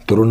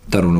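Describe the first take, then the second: First: "तरुण" with a retroflex ण; Hindi-style "तरुण"; rejected Indian pronunciation. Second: "तरुण" ending in plain n, pitched lower; "तरुण" said as "तरुन"; English pronunciation. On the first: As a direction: curl the tongue for the end of "तरुण". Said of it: "तरुण नहीं बोलेगा". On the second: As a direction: lower voice, tongue-tip n in "तरुण". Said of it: "न बोलेगा". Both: Shown as a demonstration.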